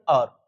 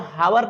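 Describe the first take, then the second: First: The word begins with a vowel, no h. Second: The word begins with an audible h sound. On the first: The speaker calls it right. "इसमें का एच जो होता है वो silent होता है" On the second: The speaker calls it wrong. "इसको हावर नहीं पढ़ते दोस्तों"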